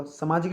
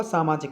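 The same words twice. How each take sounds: First: सामाजिक opening on short "sa"; wrong pronunciation. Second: सामाजिक opening on long "saa"; correct pronunciation. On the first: Teacher shows students the short vowel, mispronounced. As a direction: say सामाजिक as "sa-maa-jik". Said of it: "सामाजिक नहीं होगा". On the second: Teacher corrects it for students, careful pronunciation. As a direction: say सामाजिक as "saa-maa-jik". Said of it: "सामाजिक होगा". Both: Shown as a demonstration.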